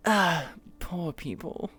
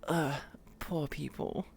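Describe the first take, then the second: First: Drawled, slow snooty sigh; posh warm-up phrase. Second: "Ugh, poor people" drawn out slowly, dismissive; snooty sneer. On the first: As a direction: sniff at the poor like a posh lady. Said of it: "I said the phrase". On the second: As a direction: look down your nose at them. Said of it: "although I can say". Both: Shown as a demonstration.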